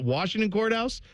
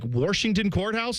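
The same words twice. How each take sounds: First: Washington is said with a standard pronunciation. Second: Washington is said with a regional pronunciation. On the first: This is the proper way to say it. The speaker calls it right. "It's not Washington Courthouse" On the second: This is how a family member says it. The speaker calls it wrong. "is what he calls it"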